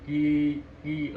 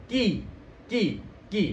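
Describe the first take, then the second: First: KI through a barely opened mouth; unclear KI. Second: KI with a broad smile, sharp "ee"; wide smiling KI. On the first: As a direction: mumble KI without spreading the lips. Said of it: "kalau kita nggak buka mulutnya nggak bakal jelas". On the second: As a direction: spread the lips wide on KI. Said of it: "ini harus tersenyum lebar". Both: Shown as a demonstration.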